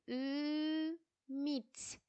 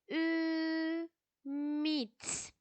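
First: The word is broken into separate syllables. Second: The same.

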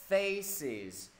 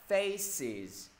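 Both takes have the same delivery.

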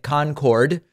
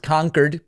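First: It sounds like the name of the supersonic jet. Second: It does not sound like the jet's name. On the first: The speaker calls it wrong. "Trump pronouncing it Concord, like the infamous supersonic jet" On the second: The speaker calls it right. "but it is Concord"

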